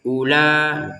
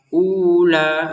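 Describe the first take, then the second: First: The first vowel is kept short. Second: The first vowel is drawn out long. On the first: The speaker calls it right. "iya langsung saja ula" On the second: The speaker calls it wrong. "Nggak bisa dibaca ula"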